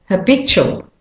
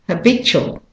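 No difference in how they are said.

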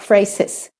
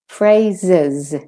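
First: The consonants are hissing S sounds. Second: The consonants are buzzing Z sounds. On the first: The speaker calls it wrong. "not phrases" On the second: The speaker calls it right. "So there are two Z's there"

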